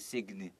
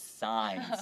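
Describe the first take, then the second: First: The g sound is pronounced in the word. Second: The g sound is silent in the word. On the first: The speaker calls it wrong. "You don't say sign" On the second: The speaker calls it right. "even though it has G, it's silent"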